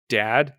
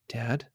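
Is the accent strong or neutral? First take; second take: strong; neutral. First: It is said with a strong, harsh accent. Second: It is said with a more neutral accent.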